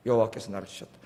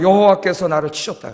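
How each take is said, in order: First: 여호와께서 나를 치셨다 said much lower and softer; soft echo. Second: Said in the usual way. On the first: Shown as a demonstration. Preacher repeating Naomi's words to the church, soft. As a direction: repeat it softly to yourself.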